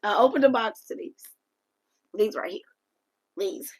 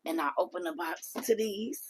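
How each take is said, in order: First: High, loud reveal of the gift; louder reveal. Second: Hushed build-up before the reveal; whisper. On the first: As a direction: burst out with the reveal. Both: Real, not acted.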